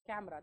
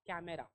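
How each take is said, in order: First: The middle vowel is dropped, silent. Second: The middle vowel is clearly pronounced. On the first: The speaker calls it right. "It's कॅमेरा" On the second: The speaker calls it wrong. "Not कॅमेरा"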